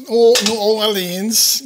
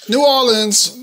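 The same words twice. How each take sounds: First: New Orleans stretched very slowly, rising at the end; drawn-out New Orleans. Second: Said in the usual way. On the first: Real, not acted. Cook evoking Cajun country for viewers, slow drawl. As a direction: savor New Orleans, drawling every sound. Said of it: "city name repeated, stretched out". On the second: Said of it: "says city name, then drawls it".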